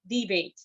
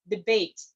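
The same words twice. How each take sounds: First: "debate" stressed on DE, as a noun; first-syllable stress. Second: "debate" stressed on BATE, as a verb; second-syllable stress. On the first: Speaker teaching noun stress to club members, DE-bate for "debate". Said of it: "stress is on the first syllable". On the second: Speaker teaching verb stress to club members, de-BATE for "debate". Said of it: "stress changes from the first syllable into the second". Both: Shown as a demonstration.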